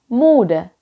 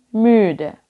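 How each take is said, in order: First: The first vowel is a plain back 'u'. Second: The first vowel is a rounded front 'ü'. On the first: The speaker calls it wrong. "itu kita tidak bilang ich bin müde" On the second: The speaker calls it right. "tapi kita bilang ich bin müde"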